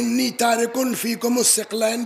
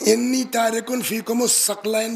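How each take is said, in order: First: The last word begins with 'thiq' and two syllables. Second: The last word begins with 'thaq' and two syllables. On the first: "अगर सिक़लैन या सकलैन पढ़ा" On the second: "अगर सिक़लैन या सकलैन पढ़ा"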